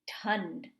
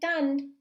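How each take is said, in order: First: The T is followed by a puff of breath. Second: The T is plain, with no breath after it. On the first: The speaker calls it right. "enunciating the H sound after the T" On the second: The speaker calls it wrong. "I'm not saying thund"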